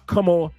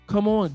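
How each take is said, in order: First: It is said firmly and directly. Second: It is said softly and tentatively. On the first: The speaker calls it right. "That's all you got to say" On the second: The speaker calls it wrong. "Don't be saying it all soft like"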